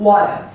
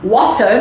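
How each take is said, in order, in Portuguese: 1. É pronunciada com sotaque americano. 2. É pronunciada com sotaque britânico. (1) "E americano" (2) "no britânico"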